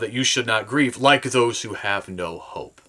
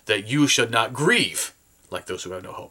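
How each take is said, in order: First: The stress is on no hope. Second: The stress is on not grieve.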